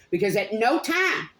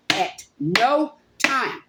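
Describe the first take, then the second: First: Said in the usual way. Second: "at no time" drawn out very slowly, each word weighed; slow stress on no. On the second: Real, not acted. Angry at the state, slow stressed "at no time".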